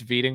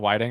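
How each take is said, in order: First: The name begins with a V sound. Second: The name begins with a W sound. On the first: The speaker calls it right. "It's Veeding, by the way" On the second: The speaker calls it wrong. "not Whiting"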